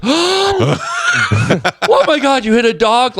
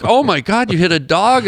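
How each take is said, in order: First: High, drawn-out mock wail of horror; hammed-up horrified cry; freaked out. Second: Mildly shocked, higher-pitched question; taken aback, imitating a concerned listener; retold surprise. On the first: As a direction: imitate a woman losing it in shock. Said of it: "like, freaked out". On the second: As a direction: react with mock concern. Retold usual reaction to dog story.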